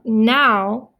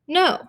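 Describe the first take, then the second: First: The vowel sounds like ow, as in cow. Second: The vowel sounds like long O, as in go. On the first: The speaker calls it wrong. "This is not now" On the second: The speaker calls it right. "O W is a vowel team that says the long O"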